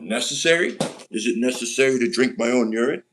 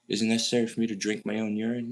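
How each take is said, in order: First: It is said imitating the characters' voice. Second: It is said in his own plain voice.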